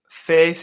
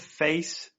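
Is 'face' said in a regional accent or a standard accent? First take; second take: regional; standard. First: The vowel has a regional accent pronunciation. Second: The vowel has a standard accent pronunciation. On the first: "saying like face" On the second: "instead of face"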